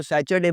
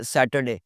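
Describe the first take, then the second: First: सैटरडे said sat-cher-day, with a ch; the wrong way: sat-cher-day; wrong Saturday. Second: सैटरडे said sa-ter-day, with a clear t; correct Saturday. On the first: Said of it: "सैटरडे बोलना छोड़ दें". (सैटरडे ग़लत: "सैचरडे") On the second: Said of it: "it's सैटरडे". (सैटरडे सही: "सैटरडे") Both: Shown as a demonstration.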